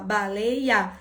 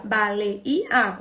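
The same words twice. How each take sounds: First: Baleia in three beats, ba-lei-a; chunked "baleia", the ei as one piece; split into syllables. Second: Baleia in four beats, ba-le-i-a; chunked "Baleia", separate i before the a; split into syllables. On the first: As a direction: break "baleia" up keeping lei together. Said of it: "Outros vão falar". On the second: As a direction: break "Baleia" up with i and a apart. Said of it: "Quantos pedacinhos tem baleia?". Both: Shown as a demonstration.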